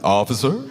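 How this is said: It is said warmly, like welcoming someone home.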